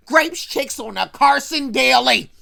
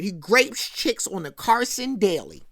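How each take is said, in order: First: "Grapes chicks on the Carson Daily" loud, with DAILY punched; loud, hammered stress on "Carson Daily"; emphatic repeat. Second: Said in the usual way. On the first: Real, not acted. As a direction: drive home "Carson Daily", each word loud.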